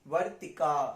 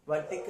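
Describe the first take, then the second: First: The final vowel is drawn out long. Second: The final vowel is cut short. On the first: The speaker calls it right. "आ है तो उसको दीर्घ खींचेंगे" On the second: The speaker calls it wrong. "वर्तिक नहीं"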